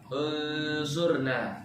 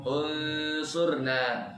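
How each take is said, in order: The two takes are said the same way.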